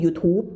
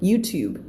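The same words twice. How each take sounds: First: "YouTube" said as Thai "yu-thup"; Thai-style "YouTube" without the y glide; Thai pronunciation. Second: "YouTube" said as English "you-tyoob"; English "YouTube" with a final b; English pronunciation. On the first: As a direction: make "YouTube" end in a closed p. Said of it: "ภาษาไทยคือ YouTube". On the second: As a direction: glide into the u of "YouTube". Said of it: "นั่นคือภาษาฝรั่ง". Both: Shown as a demonstration.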